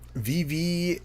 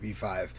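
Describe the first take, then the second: First: The second part is said as the letter V. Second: The second part is said as the number five. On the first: The speaker calls it wrong. "not V V" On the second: The speaker calls it right. "is the correct pronunciation"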